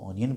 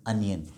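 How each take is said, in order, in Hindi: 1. पहला स्वर 'o' जैसा सुनाई देता है। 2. पहला स्वर 'uh' जैसा सुनाई देता है। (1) "हम आमतौर पे इसको ऑनियन बोलते हैं" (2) "खींच के बोला जाएगा अनियन"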